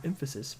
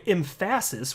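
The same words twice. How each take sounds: First: Said in the usual way. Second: Emphasis said with the stress on its second syllable, em-FASS-is; joke mispronunciation. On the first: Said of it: "the right way to say the word". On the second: Shown as a demonstration. Announcing his reading to viewers, emphasis jokingly said em-FASS-is. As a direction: say emphasis wrongly on purpose, as em-FASS-is. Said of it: "which is the right way to say".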